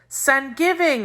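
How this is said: It is said with a Cuban Spanish accent. "the way most Cubans pronounced it, as if it were the name of a saint"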